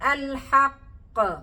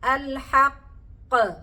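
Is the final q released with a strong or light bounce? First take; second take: strong; strong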